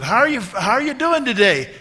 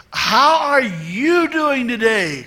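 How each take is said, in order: First: Put-on high, loud hello to an elderly friend; raised-voice imitation of greeting someone; loud retold greeting. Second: Drawn-out, high, loud "How are you doing today"; stretched words at raised volume; slow loud greeting. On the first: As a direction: call out a cheery greeting. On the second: Retold or imitated. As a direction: spell it out slowly for an elderly listener. Greeting repeated slowly for elderly woman.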